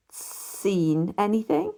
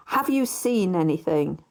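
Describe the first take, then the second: First: Slow, rising, bewildered echo; puzzled echo. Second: Said in the usual way. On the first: A narrator's reading. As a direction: repeat it back slowly, baffled. Narrator echoes in astonishment.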